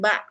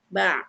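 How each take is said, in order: First: The ain sound is cut short. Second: The ain sound is stretched out longer. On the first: The speaker calls it wrong. "bukan ba aja" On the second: The speaker calls it right. "dipanjangkan atau istilahnya dimelarkan"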